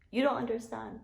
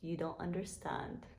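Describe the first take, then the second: First: Higher-pitched, pretend-tearful plea; mock-tearful protest. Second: Hushed mock-tearful. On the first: Vlogger pleading with viewers who dismiss Taco Bell, mock-tearful protest. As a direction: insist in a high, mock-upset voice. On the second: Vlogger lamenting the closed Taco Bell to viewers, hushed mock-tearful. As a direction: murmur it softly, as if about to cry. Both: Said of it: "I'm about to cry up in here".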